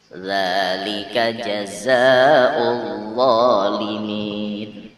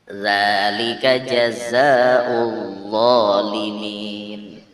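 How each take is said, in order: The two takes are said the same way.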